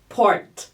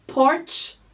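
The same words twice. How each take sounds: First: Port stopping on a clean T with no ch; clean final T. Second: Porch ending in a clear ch. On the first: Fonoaudióloga contrastando port com porch. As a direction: end port crisply on the T. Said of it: "sem esse chiadinho no final". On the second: Fonoaudióloga contrastando porch com port. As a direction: let the ch of Porch hiss out. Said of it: "Vamos mais um exemplo". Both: Shown as a demonstration.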